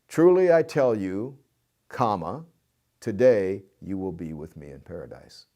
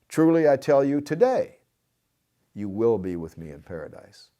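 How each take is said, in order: First: The pause comes right after the word 'you'. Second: The pause comes right after the word 'today'. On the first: The promise of paradise is for this very day. "The typical way of interpreting it is just like I read it" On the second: The promise is made today about a future time. "if you move the comma just one word"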